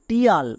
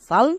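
First: The ending is said as 'tee-yal'. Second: The ending is said as 'shal'. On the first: The speaker calls it wrong. "একে অনেকে ভুল করে উচ্চারণ করে" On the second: The speaker calls it right. "এই দুটোরই উচ্চারণ হয় সাল"

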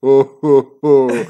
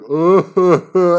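First: It is said in a deeper voice. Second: It is said in a higher voice.

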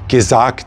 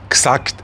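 First: The first vowel is clearly pronounced. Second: The first vowel is swallowed. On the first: The speaker calls it right. "das heißt gemacht, gesagt" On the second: The speaker calls it wrong. "die verschlingen auch diese Selbstlaute"

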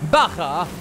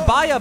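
First: The middle consonant is a throaty ch sound. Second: The middle consonant is a soft y sound. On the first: The speaker calls it right. "sondern der Bacher. Wir machen plötzlich Spanisch" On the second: The speaker calls it wrong. "es ist wohl nicht der Bayer Bone Shaker"

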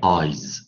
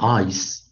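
First: The final consonant is a voiced z sound. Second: The final consonant is a voiceless s sound. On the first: "s 发音为浊音z" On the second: "s 它的发音为清音s"

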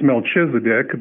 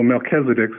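First: The middle consonant is a ch sound. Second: The middle consonant is a k sound. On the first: The speaker calls it wrong. "it looks like it's Melchizedek, but it's not" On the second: The speaker calls it right. "that CH is pronounced like a K"

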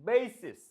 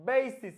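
The two takes are said the same way.

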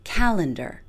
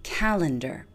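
First: The stress falls on the first syllable. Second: The same.

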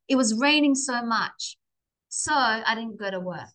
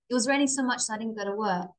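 First: There is a pause after "much". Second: It runs together fast without a pause.

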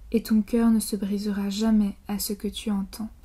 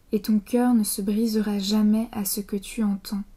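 The two takes are said the same way.

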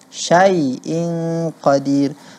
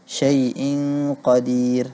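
First: The first vowel is fully open, with the jaw dropped. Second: The first vowel is narrowed, with the jaw barely open. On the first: The speaker calls it right. "mengucapkan fathah itu benar-benarlah membuka rahang" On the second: The speaker calls it wrong. "sering sekali suaranya berubah menjadi syai'in. Syai'in qadir, seperti itu"

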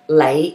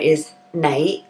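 First: The word begins with an L sound. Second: The word begins with an N sound.

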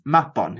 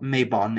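First: The first vowel is an open 'ah' sound. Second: The first vowel is not an open 'ah'. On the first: The speaker calls it right. "it's Mabon" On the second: The speaker calls it wrong. "it's not Mabon"

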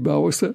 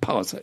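First: The first consonant is soft, like a B. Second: The first consonant is a hard, clear P. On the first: The speaker calls it wrong. "kein T und D unterscheiden können wie ich. Und immer noch sagen die Pause" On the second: The speaker calls it right. "innerlich korrigiere und sage, Entschuldigung, Pause"

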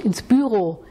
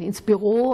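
First: Büro has the Swiss stress pattern. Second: Büro has the stress pattern common in Germany. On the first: "Wenn Sie zum Beispiel in der Schweiz aufgewachsen sind" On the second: "manche von Ihnen gehen ins Büro"

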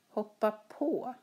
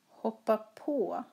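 First: The stress falls on the particle på. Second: The stress falls on the particle på.

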